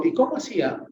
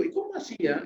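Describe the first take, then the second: First: A plain, uninterested "¿Y cómo hacía?"; the way a therapist should not ask "¿Y cómo hacía?"; offhand question. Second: A much higher, softer "¿Y cómo hacía?" as to a friend; asking a friend "¿Y cómo hacía?" with warm curiosity; friendly curious question. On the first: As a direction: toss off "¿Y cómo hacía?" without real interest. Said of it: "Yo no le digo". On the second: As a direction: lift "¿Y cómo hacía?" up high with easy interest. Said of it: "cuando yo le digo a un amigo". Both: Shown as a demonstration.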